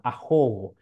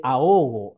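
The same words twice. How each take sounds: First: "ahogo" with the h sounded as a rough j, like axogo; Guarani pronunciation. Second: "ahogo" with a silent h, said aogo; Spanish pronunciation. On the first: Lecturer showing students the Guarani way, "ahogo" with a sounded h. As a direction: breathe a harsh throat sound into the h of "ahogo". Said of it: "Así suena". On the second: Lecturer giving the Spanish original, "ahogo" with silent h. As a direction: drop the h in "ahogo" entirely, a-o-go. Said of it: "la H intermedia no suena". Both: Shown as a demonstration.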